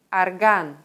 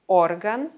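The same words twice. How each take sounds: First: Орган said ar-GAN, first O reduced to A; орган as the instrument, second syllable stressed; stress on last syllable. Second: Орган said OR-gan, full stressed O at the start; Орган as body organ, first syllable stressed. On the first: Teacher contrasting homographs, second-syllable stress. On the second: Teacher contrasting homographs, first-syllable stress. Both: Shown as a demonstration. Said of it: "Den Unterschied erkennt man an der Aussprache".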